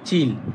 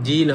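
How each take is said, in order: First: The first consonant is tense and hard. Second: The first consonant is plain and soft. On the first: The speaker calls it right. "এটা হবে চিল" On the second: The speaker calls it wrong. "এটা জিল হবে না"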